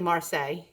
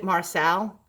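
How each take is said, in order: First: The name ends with a 'say' sound. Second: The name ends with a 'sell' sound. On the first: The speaker calls it right. "but it's really Marseille" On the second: The speaker calls it wrong. "I pronounce it Marcel"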